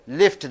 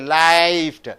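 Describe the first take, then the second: First: The vowel is clipped short. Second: The vowel is held long. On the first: The speaker calls it right. "You say lift. The I is shortened because F is unvoiced" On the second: The speaker calls it wrong. "You don't say lift"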